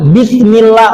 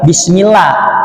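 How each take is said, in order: First: The s is a lisped th sound. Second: The s is a plain hissing s sound. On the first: It means with the sin of God. The speaker calls it wrong. "wah itu maknanya jadi loncat sekali Pak, dengan dosa Allah" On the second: It means in the name of God. The speaker calls it right. "pakai sa bukan pakai sa"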